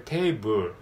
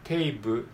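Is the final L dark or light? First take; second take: dark; dark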